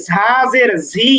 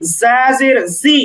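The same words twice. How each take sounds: First: "ঝা জের ঝি" with a breath puff after each z; wrong aspirated sound. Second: "জা জের জি" with a pure, slow z; "জা" and "জি" as za and zi, unaspirated; correct buzzing z. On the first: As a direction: mistaken take, "ঝি" said as zhi with an h. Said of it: "কখনোই ঝা জের ঝি এমন না". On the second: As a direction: hold a buzzing z in "জি", no h. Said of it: "বরং". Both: Shown as a demonstration.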